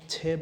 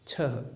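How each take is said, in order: First: The word is said quickly and carelessly. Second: The word is said slowly and carefully. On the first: The speaker calls it wrong. "जल्दी जल्दी में छः बोल देते हैं, जो कि गलत है" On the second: The speaker calls it right. "यहाँ पर हम सिक्स को छः कहेंगे"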